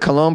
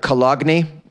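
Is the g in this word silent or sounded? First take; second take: silent; sounded. First: The g is silent in the word. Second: The g is sounded in the word. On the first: This is the usual way to say it. "It's funny how we pronounce it Cologne" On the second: This is how the spelling suggests saying it. "but it really looks like Cologne"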